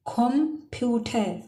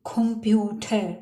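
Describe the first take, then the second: First: कंप्यूटर again, slower and drawn out; teacher's slow second take of कंप्यूटर; slow repeat. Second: कंप्यूटर with a k sound at the start; teacher's first take of कंप्यूटर; German example word. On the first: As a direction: stretch कंप्यूटर slowly for learners. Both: Shown as a demonstration. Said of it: "जैसे".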